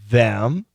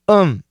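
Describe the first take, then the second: First: Said in full with a clear th and vowel. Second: The th is dropped, leaving just um. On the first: "of course, them, perfect pronunciation" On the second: "we frequently just say um"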